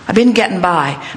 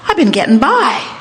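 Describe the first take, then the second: First: It sounds resigned, said against oneself. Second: It sounds positive, said with the flow.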